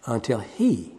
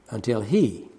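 No difference in how they are said.

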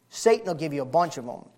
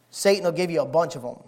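No difference in how they are said.

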